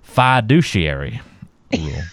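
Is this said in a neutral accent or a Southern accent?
Southern. It is said in a Deep South accent.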